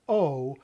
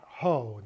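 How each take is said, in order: First: "O" said as a bare open vowel with no h; smooth O. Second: "ho" said with a breathy h in front; "ho" with a clear h, the wrong form; rough ho. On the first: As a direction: say "O" with no breath before it. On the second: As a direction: give "ho" an h before the vowel. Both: Shown as a demonstration. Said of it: "It is O, not ho".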